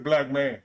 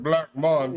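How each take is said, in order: First: The last syllable has an 'a' vowel, like 'man'. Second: The last syllable has an 'o' vowel, like 'mon'. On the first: This is the name's true form. The speaker calls it right. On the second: This is how others usually say it. The speaker calls it wrong.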